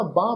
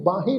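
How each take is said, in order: First: ਬਾਂਹ as one nasal syllable; silent ਸਿਹਾਰੀ. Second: ਬਾਹੇ in two syllables, baa-he; wrong sounded ending. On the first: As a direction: end ਬਾਂਹ on the long aa, without 'he'. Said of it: "ਬਾਂਹ ਪੜ੍ਹਨਾ ਵਾ". ('ਬਾਂਹ', 'ਹੇ' ਤੋਂ ਬਿਨਾਂ) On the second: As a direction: pronounce the 'he' that ends ਬਾਹੇ. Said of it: "ਇਹਨੂੰ ਬਾਹੇ ਨਹੀਂ ਪੜ੍ਹਨਾ". ('ਬਾਹੇ', 'ਹੇ' ਬੋਲ ਕੇ) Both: Shown as a demonstration.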